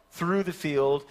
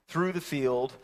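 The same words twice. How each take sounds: The two takes are said the same way.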